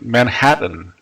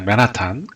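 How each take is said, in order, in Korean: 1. 원래 영어식으로 발음합니다. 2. 한국식으로 발음합니다. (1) "원래는 이제 맨하튼" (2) "맨하탄 이러잖아요"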